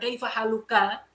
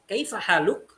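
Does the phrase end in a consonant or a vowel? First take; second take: vowel; consonant. First: The last word ends with a short vowel. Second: The last word ends on a bare consonant. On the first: The phrase runs on into following words. The speaker calls it wrong. "bukan kaifa haluka" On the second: The speaker stops after this phrase. The speaker calls it right. "saya bacanya tadi gimana? Kaifa haluk"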